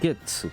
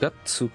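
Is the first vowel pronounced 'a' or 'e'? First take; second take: e; a. First: The first vowel is pronounced 'e'. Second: The first vowel is pronounced 'a'. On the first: The speaker calls it wrong. "Et pas" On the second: The speaker calls it right. "Gatsu. Et pas"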